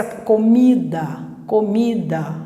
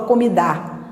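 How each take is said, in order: First: "comida" com o último "a" fraco e átono; final A fraco. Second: "comidar" com a última sílaba tônica; pronúncia errada. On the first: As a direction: deixe o "a" final de "comida" cair, reduzido. ("comida" com a vogal final fraquinha) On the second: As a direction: jogue a força no "dar" de "comidar". ("comidar" com A final aberto e forte) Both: Shown as a demonstration. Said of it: "você não fala comidar".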